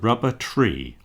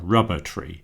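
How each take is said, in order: First: The stress falls on the second word. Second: The stress falls on the first word. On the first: A tree made of rubber. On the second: A tree that produces rubber.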